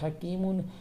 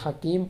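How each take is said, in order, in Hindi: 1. शब्द नासिका वाले 'un' अंत से खत्म होता है। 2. शब्द सादे 'm' पर अचानक खत्म होता है। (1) "आयत नहीं है तो हकीमुन" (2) "इसको फिर हकीम पढ़ेंगे"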